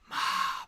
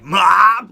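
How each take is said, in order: First: The word is whispered quietly. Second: The word is yelled loudly. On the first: "he whispers it" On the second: "he yelled it"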